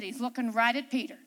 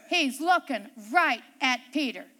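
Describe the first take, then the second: First: Said in the usual way. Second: Each word set apart, weight on "right"; emphatic repeat. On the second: Shown as a demonstration. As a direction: drive home "right at Peter" with firm stress.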